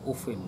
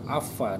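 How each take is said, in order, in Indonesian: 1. Kata ini diawali dengan u dan berakhir dengan -in. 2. Kata ini diawali dengan a dan berakhir dengan -a. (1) "qiraatul Hafs itu ufin" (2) "kalau di Mekah itu afa"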